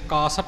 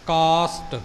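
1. ਵਿਚਕਾਰਲੀ ਸਿੱਸਣ ਵਾਲੀ ਆਵਾਜ਼ ਪੂਰੀ ਹੈ। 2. ਵਿਚਕਾਰਲੀ ਸਿੱਸਣ ਵਾਲੀ ਆਵਾਜ਼ ਘਟੀ ਹੋਈ ਹੈ। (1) "ਕਾਸ਼ਟ ਨਹੀਂ ਕਰਨਾ" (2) "ਸੱਸੇ ਦੀ ਆਵਾਜ਼ ਇੱਥੇ ਥੋੜ੍ਹੀ ਜਿਹੀ ਘਟਦੀ ਹੈ"

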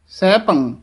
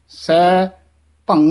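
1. ਸ਼ਬਦ ਇੱਕ ਇਕਾਈ ਵਜੋਂ ਬੋਲਿਆ ਜਾਂਦਾ ਹੈ। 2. ਸ਼ਬਦ ਦੋ ਹਿੱਸਿਆਂ ਵਿੱਚ ਵੰਡਿਆ ਜਾਂਦਾ ਹੈ। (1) "ਸਹਿਭੰਗ ਇਕੱਠਾ ਕਹਿਣਾ ਹੈ" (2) "ਸਹਿ ਭੰਗ ਨਹੀਂ ਕਹਿਣਾ ਹੈ"

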